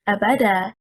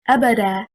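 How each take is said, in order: First: The stress is on the second syllable. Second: The stress is on the first syllable. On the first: It asks whether something appeared. The speaker calls it wrong. "Stressing on the second حركة, حركة الباء" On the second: It means forever. The speaker calls it right. "Stressing on the first حركة, which is حركة الهمزة"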